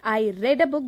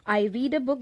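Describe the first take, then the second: First: The verb has a short 'e' vowel. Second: The verb has a long 'ee' vowel. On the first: The reading happened in the past. "that means I read this book already" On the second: The reading is happening now. "that means I'm reading right now"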